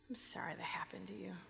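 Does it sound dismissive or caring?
caring. It sounds warm and caring.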